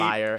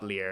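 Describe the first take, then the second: First: The vowel sounds like 'eye', rhyming with 'fire'. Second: The vowel sounds like 'ear', rhyming with 'fear'. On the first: The speaker calls it right. "It is liar" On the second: The speaker calls it wrong. "[name] pronounced it Lear. I'm like, [name], it's not Lear"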